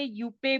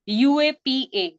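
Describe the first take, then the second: First: It is said as one short word. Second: Each letter is said separately. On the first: The speaker calls it wrong. "बहुत सारे यूपे भी बोलते हैं" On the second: The speaker calls it right. "But it is a best कि हम यूएपीए ही करें"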